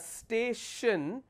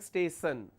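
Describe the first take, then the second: First: The middle consonant is an sh sound. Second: The middle consonant is an s sound. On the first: The speaker calls it right. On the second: The speaker calls it wrong.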